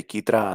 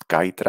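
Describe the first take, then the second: First: "Kitra" with a Spanish ee, KEE-tra; Spanish pronunciation. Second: "Kaitra" with first syllable like "kite"; guessed pronunciation. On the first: Streamer showing the Spanish reading, "Kitra" said KEE-tra. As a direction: say "Kitra" the Spanish way, first syllable like "key". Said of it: "In Spanish, we will say". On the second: Streamer guessing a game name, "Kaitra" said KAI-tra. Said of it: "I think this is pronounced". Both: Shown as a demonstration.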